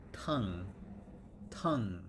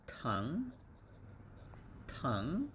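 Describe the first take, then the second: First: Tongue with the word falling at the end; falling tongue drill. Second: Tongue with the word rising at the end; rising tongue drill. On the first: Teacher repeats tongue for the class, falling at the end. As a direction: settle tongue down, T, A, ng. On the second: Teacher models tongue for the class, rising at the end. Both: Shown as a demonstration. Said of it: "So it's T and A and just ng sound".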